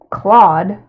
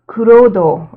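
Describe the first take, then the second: First: The name rhymes with the word sawed. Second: The name has three syllables, ending in -do. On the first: "there's also the way to pronounce it" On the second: "in Japanese they're like kurodo"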